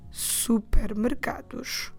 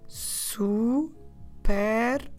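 First: The word is said quickly. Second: The word is said slowly.

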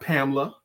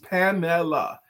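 First: The name is said with two syllables. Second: The name is said with three syllables. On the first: The speaker calls it wrong. "It's not Pamela" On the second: The speaker calls it right. "Three syllables"

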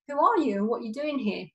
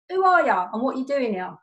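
First: It is said in a nice tone. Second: It is said in an aggressive tone.

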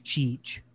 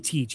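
First: The word begins with a ch sound. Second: The word begins with a t sound. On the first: "He says cheech" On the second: "He doesn't say teach"

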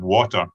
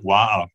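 First: The middle t is clearly pronounced. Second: The middle t is dropped or glottalised. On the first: This is the well-spoken way the mother used. "instead of water" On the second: This is the working-class local way of speaking. "saying things like water"

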